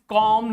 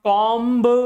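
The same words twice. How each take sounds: First: The final B is silent. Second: The final B is pronounced. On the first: The speaker calls it right. "This is comb" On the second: The speaker calls it wrong. "not comb"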